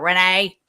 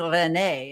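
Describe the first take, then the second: First: The name is said with a flat Midwestern vowel. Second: The name is said without a Midwestern vowel. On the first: "I have a little bit of a "eh" to a lot of things I say" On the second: "instead of having Renee"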